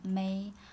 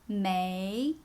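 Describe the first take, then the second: First: The pitch stays level throughout. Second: The pitch rises toward the end. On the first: "If there's no tone" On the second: "think about the question tone"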